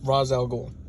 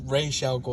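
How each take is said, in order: First: The first word sounds like 'Roz'. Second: The first word sounds like 'Raish'. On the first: This is how most versions say the name. "most stuff like that I've heard his name set, said in it's" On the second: This is how some newer shows say the name. "Young Justice and like Arrowverse they say"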